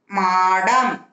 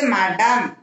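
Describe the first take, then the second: First: மாடம் with the "aa" held long; long vowel. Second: மடம் with a short first "a"; short vowel. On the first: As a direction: stretch the first vowel of மாடம். (மாடம் நெடிலாக, நீட்டி) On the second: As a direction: keep the opening of மடம் brief. (மடம் குறிலாக, குறுக்கி) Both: Shown as a demonstration. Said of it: "துணைக்கால் போட்டு".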